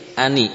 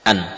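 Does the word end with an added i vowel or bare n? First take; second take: added i; bare n. First: The word ends with n plus an i vowel. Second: The word ends on a bare n sound. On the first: "Kenapa jadi kasrah?" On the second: "nunnya sukun"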